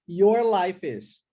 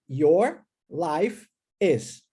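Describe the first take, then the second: First: The words run together like one word. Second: The three words are said separately. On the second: "nós temos três palavras"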